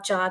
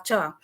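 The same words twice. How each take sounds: First: The pitch stays level in the middle. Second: The pitch stays low throughout. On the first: "In the second case, there's a mid tone" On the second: "in the final, there's a low tone"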